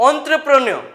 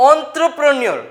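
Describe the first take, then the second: No difference in how they are said.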